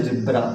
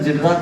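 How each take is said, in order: First: "जेब्रा" as zeb-ra; lower, softer "जेब्रा"; correct reading. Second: "जेडरा" with Z read as zed; wrong reading. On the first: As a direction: say "जेब्रा" with a plain Z sound, no zed. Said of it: "तो क्या बोलते हो". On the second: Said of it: "जेडरा बोलोगे गलत हो जाएगा". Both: Shown as a demonstration.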